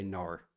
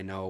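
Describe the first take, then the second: First: Nor said as no with an R tacked on the end; the wrong way, nor with a clear R after the vowel; mock nor, adding an R to no. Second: No said plainly, with no R sound at the end; a clean no with the vowel left open and no trailing R; no, ending on the vowel with no R added. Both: Shown as a demonstration. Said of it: "I don't say nor".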